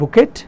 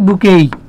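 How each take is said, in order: First: It ends with a clear final t sound. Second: It ends in an ay sound, no final t. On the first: The speaker calls it wrong. "আমরা বাংলাদেশের মানুষজন বলি বুকেট" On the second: The speaker calls it right. "Correct উচ্চারণ কি? বুকেই।"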